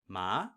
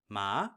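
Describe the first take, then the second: First: The pitch starts mid and glides upward. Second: The pitch starts mid and glides upward.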